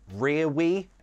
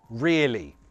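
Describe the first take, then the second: First: The middle consonant is a W sound. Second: The middle consonant is an L sound. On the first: The speaker calls it wrong. "no, no one says that" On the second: The speaker calls it right. "That's the L"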